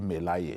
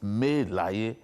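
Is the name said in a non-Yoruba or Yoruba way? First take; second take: non-Yoruba; Yoruba. First: The name is said with a non-Yoruba pronunciation. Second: The name is said with a Yoruba pronunciation. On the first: The name means nothing in Yoruba. The speaker calls it wrong. "that people say Melaye. It's- That's, that's rubbish. There is nothing like Melaye in Yoruba" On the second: The name means 'I don't own the world'. The speaker calls it right. "His name is Melaye"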